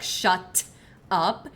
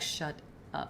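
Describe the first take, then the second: First: The T and S sounds are crisp and hard. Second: The T and S sounds are softened and gentle. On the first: The speaker calls it wrong. "you don't say like shut up" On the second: The speaker calls it right. "you soften your T's and S's"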